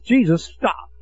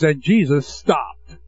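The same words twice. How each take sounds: First: Said in the usual way. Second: And Jesus stopped drawn out slowly, each word weighed; slow, weighty reading. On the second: Shown as a demonstration. Preacher savoring the verse for the congregation, slow and weighty. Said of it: "how to stop God in His tracks".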